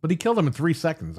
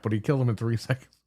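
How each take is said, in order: First: Said in the usual way. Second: Laughing. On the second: Real, not acted. Retelling the boss fight, laughing.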